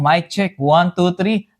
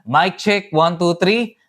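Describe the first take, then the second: First: The voice has the weakest enhancer processing. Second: The voice has stronger enhancer processing. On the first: "dito muna tayo sa pinakababa" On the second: "yung mas mataas dito"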